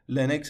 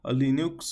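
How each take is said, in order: First: The word is said with its original pronunciation. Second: The word is said with a Persian pronunciation. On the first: "تلفظ اصلیش لینکس هستش" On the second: "ما عادت کردیم میگیم لینوکس"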